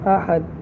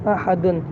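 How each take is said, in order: First: The word stops without the final 'un' sound. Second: The word ends with a nasal 'un' sound. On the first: The reader pauses and stops on this word. "वक्फ में क्या हो जाएगा" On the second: The reading continues into the next word. "दाल दो पेश दुन"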